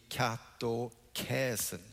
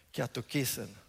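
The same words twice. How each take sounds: First: Katokäsen said slowly with an open ä, ka-to-KÄ-sen; katokäsen drawn out, not as modern i; older Greek reading. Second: Katokisen said with a plain i, ka-to-KI-sen; modern Greek reading. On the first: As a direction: spell out katokäsen slowly, old-style with ä. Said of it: "där nere läste jag katokäsen". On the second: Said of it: "med ett mer modernt uttal". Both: Shown as a demonstration.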